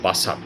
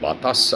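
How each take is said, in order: First: The consonants t and s are swapped. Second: The consonants t and s are in standard order. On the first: "আগেকার দিনে বাতাসকে বলতো বাসাত" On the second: "বাতাসকে অনেকে বলতো বাতাস"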